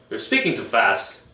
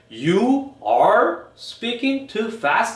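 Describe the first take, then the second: First: Some words are strong, others weak and reduced. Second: Every word gets equal, separate stress. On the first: The speaker calls it right. "리듬이 있어요. 강한 강한 쪽이 있고 약한 쪽이 있어요" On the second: The speaker calls it wrong. "이렇게 하나 하나 하나 하나 강조를 주지 않아요"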